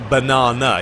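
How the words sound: It is said with a British accent.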